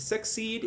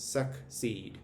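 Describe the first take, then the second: First: Said in the usual way. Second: "succeed" split as suck, then seed; separate consonant sounds. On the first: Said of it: "actually make separate sounds". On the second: Shown as a demonstration. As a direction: say "succeed" in two beats, K ending the first, S starting the second. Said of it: "two like consonants actually make separate sounds".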